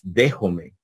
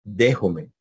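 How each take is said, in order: The two takes are said the same way.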